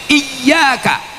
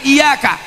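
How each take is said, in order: First: The y sound is held long and doubled. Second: The y sound is short and single. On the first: The speaker calls it right. "Ini selalu orang tidak pakai tasydid" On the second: The speaker calls it wrong. "bukan iyaka"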